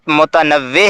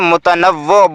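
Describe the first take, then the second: First: The word ends with an 'e' vowel sound. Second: The word ends with an 'o' vowel sound. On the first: The speaker calls it right. "ये लफ्ज़ वाव की ज़ेर के साथ मुतनव्वे है।" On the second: The speaker calls it wrong. "बहुत से लोग इसे मुतनव्वो बोलते हैं, जो गलत है।"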